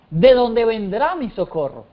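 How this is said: It is said as a statement.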